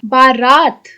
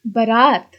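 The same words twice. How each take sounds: First: बारात with a long first a, baa-raat; wrong form read aloud. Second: बारात with a short first vowel, buh-raat; correct form. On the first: Teacher reads the wrong spelling बारात with long baa. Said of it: "अशुद्ध, शुद्ध". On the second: Teacher gives the correct बारात with short buh. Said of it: "शुद्ध". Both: Shown as a demonstration.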